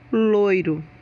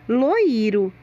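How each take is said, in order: First: The i is weak and short after the o. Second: The i is strong and long, a full vowel. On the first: The speaker calls it right. "e não" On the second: The speaker calls it wrong. "Se na pronúncia da palavra a letra I fosse forte"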